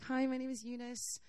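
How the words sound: It is said in a timid, insecure way.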